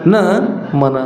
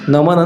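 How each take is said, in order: First: A break separates the first syllable from the rest. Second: The word is said joined, without a break. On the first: It means the mind is not one's own. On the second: It means a salutation.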